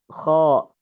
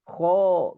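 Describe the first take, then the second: First: The vowel is said with open, unrounded lips. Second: The vowel is said with pushed-out, rounded lips. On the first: The speaker calls it right. "dengan membuka kedua bibir ... begitu saja" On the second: The speaker calls it wrong. "Tidak sampai"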